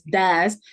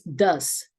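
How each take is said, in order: First: The vowel is an open ah sound. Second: The vowel is a short uh sound. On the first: The speaker calls it wrong. "realmente no es das" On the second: The speaker calls it right. "es does"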